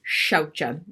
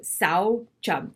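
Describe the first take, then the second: First: The word begins with an sh sound. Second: The word begins with a plain s sound. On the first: The speaker calls it right. "if to say it correctly, it's shaucha" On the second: The speaker calls it wrong. "I always say saucha because that's how I was originally taught"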